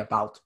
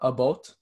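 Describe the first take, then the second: First: It is said in the speaker's everyday pronunciation. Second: It is said with a Canadian Prairie pronunciation. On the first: "I just say about because that's how I've always say it" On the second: "going to like the prairies, it's like more about"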